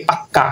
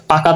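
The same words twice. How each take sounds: First: পাক্কা with a held double k; doubled consonant. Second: Said in the usual way. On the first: Shown as a demonstration. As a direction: close on the k in পাক্কা before releasing. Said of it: "ক ক". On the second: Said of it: "ব্যঞ্জনের যখন দুইবার উচ্চারণ হবে".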